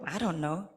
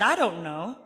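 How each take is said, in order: First: Said in the usual way. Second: Laughing through the words. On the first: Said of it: "I thought". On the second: Retold or imitated. Laughing as she answers the curious little boy. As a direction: giggle out an answer, amused. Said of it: "I was laughing".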